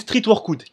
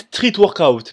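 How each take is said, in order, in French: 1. Il est prononcé avec une prononciation française. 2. Il est prononcé avec une prononciation anglaise. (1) "moi je suis un bon français, je dis street workout" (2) "je sais que ça se dit street workout"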